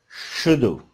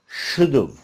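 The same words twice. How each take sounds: No difference in how they are said.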